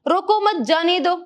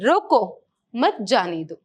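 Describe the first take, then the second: First: There is no pause after मत. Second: There is a pause after मत.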